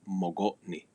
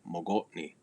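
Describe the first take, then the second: The two takes are said the same way.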